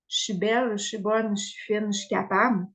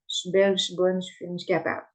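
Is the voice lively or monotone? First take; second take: lively; monotone. First: It is said with a lively, varied voice. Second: It is said in a flat, monotone voice. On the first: The words are felt and have impact. The speaker calls it right. "ça va avoir bien plus d'impact" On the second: The words are recited without feeling. The speaker calls it wrong. "de le dire de façon monotone"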